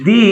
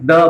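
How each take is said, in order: First: The word has a long 'ee' vowel. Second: The word has a short 'uh' vowel. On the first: "அப்ப நம்ம இத தீன்னு உச்சரிக்கணும்" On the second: "இங்க நம்ம தான் உச்சரிக்கிறோம்"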